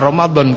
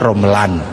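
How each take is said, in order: First: The word has a d sound before the end. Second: The word has an l sound before the end.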